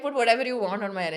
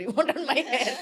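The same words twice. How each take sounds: First: Repeated louder and quicker with a laugh; emphatic repeat. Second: Laughing. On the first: Telling mom she may style her hair, emphatic laughing repeat. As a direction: say it again, louder and brighter. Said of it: "I was like". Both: Retold or imitated.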